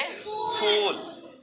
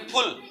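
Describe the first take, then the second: First: फूल with a long, held oo. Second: फुल with a quick, short u. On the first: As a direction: draw out the vowel in फूल. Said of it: "इसको बोलेंगे फूल". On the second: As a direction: cut the vowel of फुल short. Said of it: "इसको बोलेंगे फुल". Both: Shown as a demonstration.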